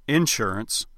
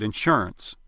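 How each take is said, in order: First: "insurance" as IN-surance, front syllable stressed; stress on first syllable. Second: "insurance" as in-SURE-ance, middle syllable stressed; stress on second syllable. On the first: Coach quotes Texas governor on radio, "insurance" stressed on IN. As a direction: lean on the IN of "insurance". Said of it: "two times he said". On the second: Coach quotes Texas governor on radio, "insurance" stressed on SURE. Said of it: "and two times he said". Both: Retold or imitated.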